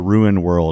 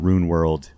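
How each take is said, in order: First: Ruin is said with two distinct syllables. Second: Ruin is squeezed into one syllable like rune. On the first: The speaker calls it right. "you really pronounce the ruin world" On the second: The speaker calls it wrong. "I kind of go almost go into a rune world"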